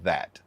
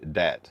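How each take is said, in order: First: The word starts with a th sound. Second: The word starts with a d sound. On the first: The speaker is from further north. "closer to the northern, they enunciate th like that" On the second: The speaker is from the south. "southern people say dat, D A T"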